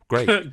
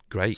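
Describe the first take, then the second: First: The word sounds sincere. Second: The word sounds sarcastic. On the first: The speaker welcomes the news. The speaker calls it right. "I didn't mean it to" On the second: The speaker seems not to welcome the news. The speaker calls it wrong. "that sounded sarcastic"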